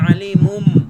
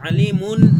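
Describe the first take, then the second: First: The word ends with an m sound. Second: The word ends with an n sound. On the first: The speaker calls it right. "হবে আলিমুম" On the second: The speaker calls it wrong. "আলিমুন না হয়ে"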